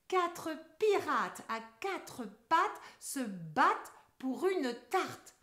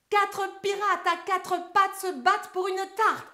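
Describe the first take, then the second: First: The sentence is spoken at a moderate pace. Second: The sentence is spoken very fast. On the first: "on accélère un peu" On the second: "mot vitesse!"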